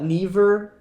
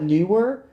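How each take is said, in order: First: It is pronounced like the word 'never'. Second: It is pronounced like the word 'newer'. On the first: Other people pronounce it this way. "I've heard people call it Never" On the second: This is the speaker's own pronunciation. "I call it Newer"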